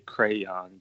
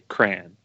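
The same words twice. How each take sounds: First: The word is pronounced in a careful, formal way. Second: The word is pronounced in a relaxed, casual way. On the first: The speaker is talking in public. "If I was public speaking or like in front of people, I would probably say crayon" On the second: The speaker is chatting informally. "But if I was just jabbing, I would say crayon"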